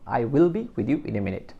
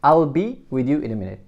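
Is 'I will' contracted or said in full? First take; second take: full; contracted. First: 'I will' is said as two full words. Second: 'I will' is shortened to one syllable.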